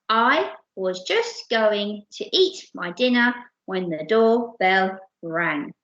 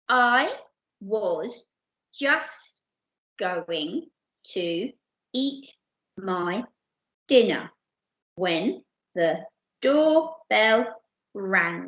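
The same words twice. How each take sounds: First: It is read quickly. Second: It is read slowly.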